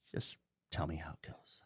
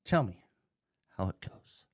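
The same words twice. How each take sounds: First: "Just tell me how it goes" breathed as a voiceless, much softer whisper; sarcastic whisper. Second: Said in the usual way. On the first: Shown as a demonstration. Sarcastic aside after dare.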